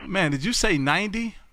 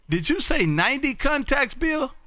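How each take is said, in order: First: Mild surprise. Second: High, incredulous question; astonished double-check. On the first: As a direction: check the number in mild disbelief. First reaction to surprising count. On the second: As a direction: pitch up on "ninety contacts" in disbelief. Asks again, astonished at count. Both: Real, not acted.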